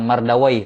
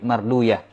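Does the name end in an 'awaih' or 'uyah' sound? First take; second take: awaih; uyah. First: The name ends with an 'awai' sound. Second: The name ends with an 'uyah' sound. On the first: This is the hadith scholars' reading. The speaker calls it wrong. "Bukan mardawai" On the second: This is the language scholars' reading. The speaker calls it right. "tapi marduyah"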